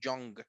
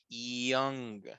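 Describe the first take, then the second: First: The initial Y sound is hard and strong. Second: The initial Y sound is soft, like an I. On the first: The speaker calls it wrong. "No suena como young" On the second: The speaker calls it right.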